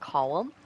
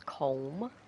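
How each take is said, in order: First: The name is said the non-American way. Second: The name is said the American way. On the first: "it is pronounced Colum" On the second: "the American way of saying it is Colm"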